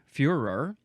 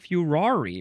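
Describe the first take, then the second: First: The word ends without an extra vowel sound. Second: The word ends with an extra vowel sound. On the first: "I guess it's pronounced the same way" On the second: "the British people like to say furori"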